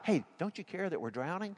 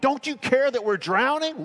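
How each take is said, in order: First: It is said in a mild, gentle tone. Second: It is said in a sharp, rebuking tone.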